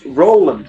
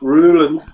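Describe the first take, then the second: First: The first vowel sounds like 'oh'. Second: The first vowel sounds like 'oo'. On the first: The speaker calls it right. "that's an O" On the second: The speaker calls it wrong. "the extra O makes me go Rue"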